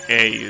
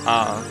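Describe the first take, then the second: First: The letter is said as English ay. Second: The letter is said as an open ah. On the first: "I don't say a" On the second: "In Spanish, you say that ah"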